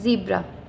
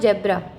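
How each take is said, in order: First: The first vowel is a long 'ee' sound. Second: The first vowel is a short 'e' sound. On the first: The speaker calls it right. "It's जीब्रा" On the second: The speaker calls it wrong. "It's not जेब्रा"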